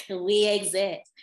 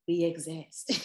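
First: "We exist" louder and slow, stress on "We"; emphatic repeat. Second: Said in the usual way. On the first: Real, not acted. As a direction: insist on "We exist", drawn out and loud. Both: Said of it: "it's possible".

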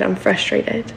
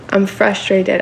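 First: Fading to a breathy whisper; whispered, spent and defeated. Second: Said in the usual way. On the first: Retold or imitated. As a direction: let the last one die into a whisper.

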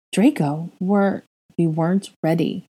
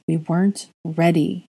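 First: Dazed repeating. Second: Distant, hollow and slow; slow, dazed repeat. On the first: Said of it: "he repeated". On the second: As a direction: say it slowly, far away. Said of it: "he repeated again". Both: Acted.

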